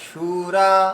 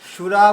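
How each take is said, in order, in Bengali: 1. স্বরধ্বনিগুলো দীর্ঘ উচ্চারিত হয়। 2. স্বরধ্বনিগুলো হ্রস্ব উচ্চারিত হয়। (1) "দুটোই দীর্ঘ" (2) "সুরা বললে হবে না"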